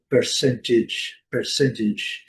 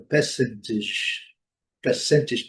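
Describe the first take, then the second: First: Percentage in American English, R sounded. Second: Percentage in British English, R silent. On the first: Teacher models American English for learners, American pronunciation. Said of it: "E no inglês americano". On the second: Teacher models British English without R, British pronunciation. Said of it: "No inglês britânico". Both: Shown as a demonstration.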